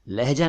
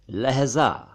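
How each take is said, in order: First: लहजा said with a j, "lehja"; j-sound लहजा. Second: लहजा said with a buzzing z, "lehza"; z-sound लहजा. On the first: Teacher rejecting a mispronunciation: लहजा as "lehja". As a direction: say लहजा with a hard j, not z. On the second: Teacher correcting Urdu word for moment: लहजा as "lehza". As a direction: say लहजा with z instead of j. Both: Shown as a demonstration. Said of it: "लहजा नहीं".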